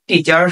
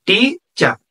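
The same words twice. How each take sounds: First: Said in the usual way. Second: টিচার pulled apart as টি, then চার; two distinct beats on টিচার, টি and চার; split into syllables. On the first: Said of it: "দুইটা অংশ আছে". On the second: Shown as a demonstration. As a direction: sound out টিচার in two separate parts. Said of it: "তাহলে দুইটা অংশ আছে".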